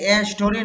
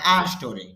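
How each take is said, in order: First: The article is said with a full ay vowel. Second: The article is said as a short uh vowel. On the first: The speaker calls it wrong. "এ বলবেন না?" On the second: The speaker calls it right. "এখানে সংক্ষিপ্ত ভাবে আ হবে"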